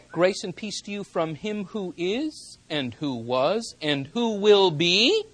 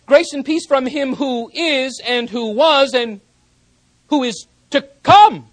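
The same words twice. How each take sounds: First: Said in the usual way. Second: Higher, louder, declaring "who is to come"; ringing proclamation. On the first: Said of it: "John does not say". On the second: Shown as a demonstration. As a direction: proclaim the true text with authority. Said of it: "Rather, he writes".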